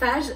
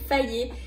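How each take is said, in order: First: The word ends in a consonant sound. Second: The word ends in an 'é' vowel sound. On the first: This is how the name is read from its spelling. The speaker calls it wrong. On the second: This is how the name is actually said. The speaker calls it right.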